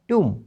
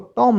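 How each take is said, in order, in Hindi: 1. स्वर लंबा 'oo' ध्वनि है। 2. स्वर छोटा 'o' ध्वनि है।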